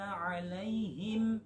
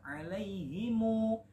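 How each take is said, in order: First: The word stops on a silent final m. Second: The final m is followed by a short u vowel. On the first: This is how the word is read when stopping. The speaker calls it right. "Ketika waqaf maka ya disukunkan" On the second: This follows another reading tradition. The speaker calls it wrong. "memnya berharokat dhammah 'alaihimu"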